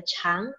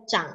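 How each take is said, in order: First: "chang" rising as cháng; "chang" in the rising second tone. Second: "chang" dipped low as zhǎng; "chang" in the falling-rising third tone. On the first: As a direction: read "chang" climbing upward for long. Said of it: "artinya panjang". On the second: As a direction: read "chang" with a low dip for grow. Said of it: "artinya tumbuh ya". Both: Shown as a demonstration.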